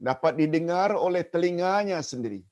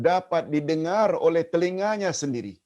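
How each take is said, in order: No difference in how they are said.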